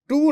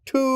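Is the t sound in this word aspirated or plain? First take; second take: plain; aspirated. First: The t is said plain, without breathiness. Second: The t is said heavier, with a puff of breath. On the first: The speaker calls it wrong. "না" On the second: The speaker calls it right. "আসলে সঠিক উচ্চারণ হলো কি, একটু ঠয়ের দিকে"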